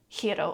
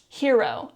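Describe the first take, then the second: First: It is said with a Japanese accent. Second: It is said with an English accent. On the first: The speaker calls it wrong. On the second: The speaker calls it right.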